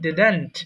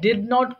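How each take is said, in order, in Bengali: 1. এটা একসাথে জুড়ে একটি সংকুচিত শব্দ হিসেবে বলা হয়। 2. এটা দুটি আলাদা পূর্ণ শব্দ হিসেবে বলা হয়।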